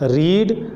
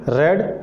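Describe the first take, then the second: First: The vowel is long, like 'reed'. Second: The vowel is short, like 'red'. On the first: It is the present form of the verb. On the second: It is the past form of the verb.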